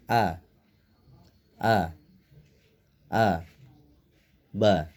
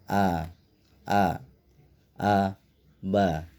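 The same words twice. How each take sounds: First: Each syllable is cut off with pauses between. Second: Each syllable is said short and quick. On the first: "bacanya boleh diputus" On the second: "harus dibaca pendek saja"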